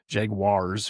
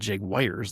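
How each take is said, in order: First: The second syllable sounds like 'waars'. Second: The second syllable sounds like 'wires'. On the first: The speaker calls it right. "it's like a a J J J A and then a G W A A R" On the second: The speaker calls it wrong. "It's not Jaguars, like a electrical wire"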